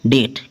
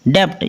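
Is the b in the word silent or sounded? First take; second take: silent; sounded. First: No b sound is heard before the t. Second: A b sound is heard before the t. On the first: The speaker calls it right. "इसकी perfect pronunciation क्या है" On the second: The speaker calls it wrong. "लोग इसको क्या बोलते हैं"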